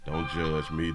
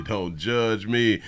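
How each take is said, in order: First: Said in the usual way. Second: Slow drawn-out. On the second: Real, not acted. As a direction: drag it out slowly, teasing.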